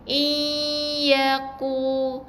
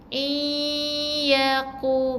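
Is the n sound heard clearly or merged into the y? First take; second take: merged; merged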